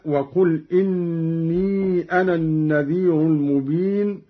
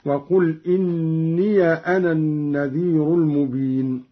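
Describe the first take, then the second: First: إني recited as inni; silent ya. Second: إني recited as inniya; ya with fatha. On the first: Teacher recites the verse before Qalun's reading. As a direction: say إني without a vowel on the ya. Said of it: "قرأ قالون بفتح الياء". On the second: Teacher demonstrates Qalun's reading, inniya. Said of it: "بفتح الياء هكذا". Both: Shown as a demonstration.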